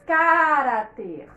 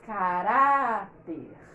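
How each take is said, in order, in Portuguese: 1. A sílaba tônica é a primeira. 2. A sílaba tônica é a do meio. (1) "Se fosse a antepenúltima, nós diríamos" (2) "para que essa sílaba seja mais forte do que a que tem o R"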